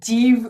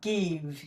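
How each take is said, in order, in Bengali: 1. শব্দটি j শব্দ দিয়ে শুরু হয়। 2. শব্দটি hard g শব্দ দিয়ে শুরু হয়। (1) "এটিকে আমরা জিভ উচ্চারণ করব না" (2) "তখন এটির উচ্চারণ অবশ্যই গ হবে"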